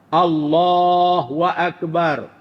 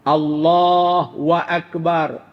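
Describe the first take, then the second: No difference in how they are said.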